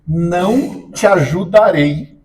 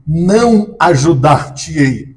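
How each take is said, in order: First: Não te ajudarei said slowly, with ajudarei rising; correct form. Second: Não ajudar-te-ei said slowly, with NÃO stressed; wrong form. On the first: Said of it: "ela vai dizer". (forma correta dita devagar) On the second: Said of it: "Aí tá errado". (forma errada dita devagar) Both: Shown as a demonstration.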